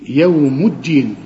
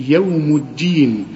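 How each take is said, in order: Both takes have the same delivery.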